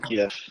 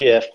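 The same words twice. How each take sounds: First: It begins with a hard G sound. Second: It begins with a soft J-like sound. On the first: The speaker calls it right. "it's a GIF. It's a hard G" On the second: The speaker calls it wrong. "It's not a"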